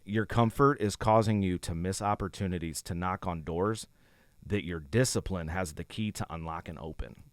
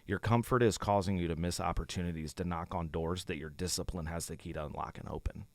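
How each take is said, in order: First: It is read more slowly. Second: It is read at a normal pace.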